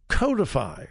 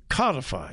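First: Codify said as KOH-dih-fy; first syllable of codify rhymes with go; long-o pronunciation. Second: Codify said as KAH-dih-fy; first syllable of codify sounds like cod; short-o pronunciation. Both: Shown as a demonstration. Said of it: "depends on how you want to pronounce it".

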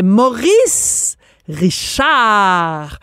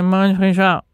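First: Hugely drawn-out, over-articulated "Maurice Richard"; hammed-up elocution lesson on "Maurice Richard", every sound sustained; imitating diction teacher. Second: Mumbled "Maurice Richard", syllables run together; mock poor diction on "Maurice Richard"; imitating Maurice Richard. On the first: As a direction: stretch "Maurice" upward, pause, then a long falling "Richard". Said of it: "Elle apprenait à Maurice Richard comment prononcer". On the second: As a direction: swallow "Maurice Richard" in one quick indistinct murmur. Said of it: "Puis là, il répondait".

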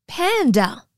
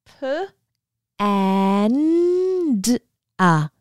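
First: Panda. said whole, blended after sounding out; blending sounds. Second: P, and a: panda sounded out in slow separate parts; sounding out words. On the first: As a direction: say Panda. as one blended word. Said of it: "sound out the word panda together". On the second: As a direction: break P and a into spaced sounds. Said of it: "Do you think we can sound out the word panda together". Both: Shown as a demonstration.

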